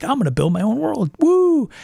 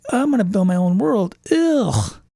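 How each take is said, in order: First: Eager, rising cheer on world then a high whoop; gleeful about building a whole world; excited world builder. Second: Same line ending in a groaning ugh; weary world builder. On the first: Game master gushing about building his own world, excited. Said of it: "Part of the game master piece is like". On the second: Game master dreading building his own world, mock weary groan. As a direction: dread at all the work ahead. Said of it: "I'm like". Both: Retold or imitated.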